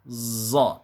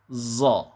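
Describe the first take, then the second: First: The consonant sounds hissing like a z. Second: The consonant sounds hissing like a z.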